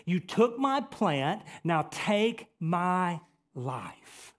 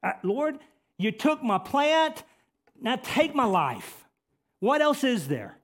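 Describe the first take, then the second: First: Slow, drawn-out plea to God; slow, deliberate acted plea; Jonah's plea. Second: Loud, high cry to God; high-pitched, forceful outcry to the Lord; Jonah crying out. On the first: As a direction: stretch out each word as Jonah pleading. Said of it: "Jonah turns to God and he says". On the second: Acted. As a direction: cry out in raised, impassioned protest. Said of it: "Jonah cries out here".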